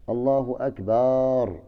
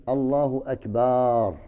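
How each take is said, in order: No difference in how they are said.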